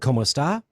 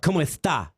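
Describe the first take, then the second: First: The s is a plain hissed s sound. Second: The s is lisped as a th sound. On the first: "Instead of" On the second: "they have a lisp, right? And they say"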